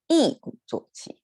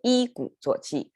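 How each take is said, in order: First: The first syllable's tone is changed before third tone. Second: The first syllable keeps its unchanged dictionary tone. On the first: The speaker calls it right. "a lot of times we just say" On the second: The speaker calls it wrong. "is a little bit sound awkward uh, to Chinese ears"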